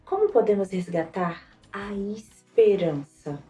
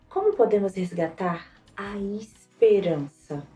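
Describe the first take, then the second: First: The word "esperança" carries the main emphasis. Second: The same.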